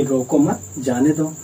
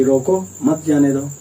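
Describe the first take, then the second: First: रोको मत as one unit, then जाने दो; pause after मत. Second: रोको alone, then मत जाने दो together; pause after रोको. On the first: Teacher showing what the speaker meant, pausing after मत. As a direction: join रोको to मत, break before जाने दो. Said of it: "वह जाने को बोल दिया". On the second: Teacher showing what the listener misheard, pausing after रोको. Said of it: "उसने क्या सुन लिया कि". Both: Shown as a demonstration.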